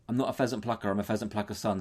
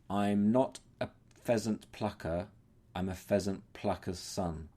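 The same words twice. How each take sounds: First: The rhyme is spoken quickly and rushed. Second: The rhyme is spoken slowly and carefully. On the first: "you've got to do it really fast" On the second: "I'll do it slowly for you now"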